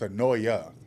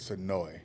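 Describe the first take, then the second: First: The name ends with an extra vowel. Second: The name ends on the 'oy' sound. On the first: This is the fuller form of the name. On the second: This is how locals say the name.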